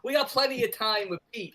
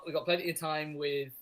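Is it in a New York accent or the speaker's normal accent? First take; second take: New York; normal. First: It is said in a New York accent. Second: It is said in the speaker's normal accent.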